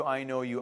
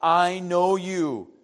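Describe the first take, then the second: First: Softly, "I know you" in a hushed voice; a quiet promise of "I know you"; hushed God's voice. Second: Slowly, weighting "know" in "I know you"; "I know you" drawn out slowly; slow emphatic. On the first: Pastor voicing God to his congregation, hushed. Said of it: "But God says". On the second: Pastor stressing God's promise to the congregation, slowly. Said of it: "I created you". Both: Shown as a demonstration.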